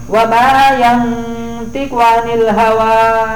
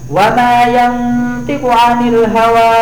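No difference in how they are said.

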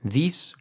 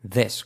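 First: The vowel is a long ee sound. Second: The vowel is short, close to e. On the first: It would mean the plural form. The speaker calls it wrong. "no es this, que sería en plural" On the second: It means the singular form. The speaker calls it right. "sino this, como una E"

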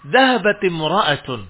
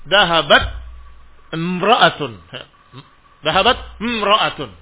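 First: The t takes an i vowel linking into the next word. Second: The t ends without a vowel before the next word. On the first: The speaker calls it right. "Kecuali dengan ditahrik harokat ta'nya" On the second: The speaker calls it wrong. "Susah untuk dibaca"

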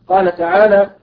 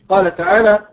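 Both takes have the same delivery.

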